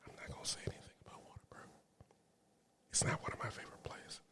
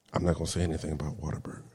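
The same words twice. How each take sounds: First: Breathy whisper, like a secret. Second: A fast, hushed aside; quiet aside. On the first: Vlogger whispering her dig at Whataburger to viewers. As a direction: whisper the jab as if someone might overhear. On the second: Vlogger on fast food workers, hushing her own jab at Whataburger, quiet and fast. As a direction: drop it low and fast, half under the breath. Aside, not saying it openly. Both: Real, not acted.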